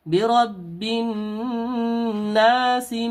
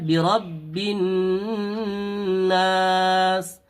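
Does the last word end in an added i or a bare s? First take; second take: added i; bare s. First: The last word ends with an added i vowel. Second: The last word ends on a bare s sound. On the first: The reciter joins it to the next verse. "सीन के नीचे जेर पढ़ेंगे" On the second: The reciter stops at the end of the verse. "सीन को जज्म देकर सीन को साकिन कर देंगे"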